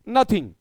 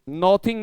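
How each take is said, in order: First: The first vowel is a short 'uh' sound. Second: The first vowel is an open 'aw' sound. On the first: The speaker calls it right. "बल्कि नथिंग" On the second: The speaker calls it wrong. "नॉथिंग नहीं"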